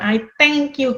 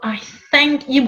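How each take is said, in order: First: 'Thank' begins with a hard t sound. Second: 'Thank' begins with a soft th sound. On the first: The speaker calls it wrong. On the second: The speaker calls it right.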